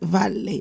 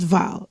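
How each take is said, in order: First: The word ends with a clear vowel sound. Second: The word ends on the consonant, no vowel. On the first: The speaker calls it right. "Yes, vale" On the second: The speaker calls it wrong. "not val"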